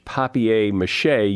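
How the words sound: It is pronounced the French way. "as it is pronounced in French"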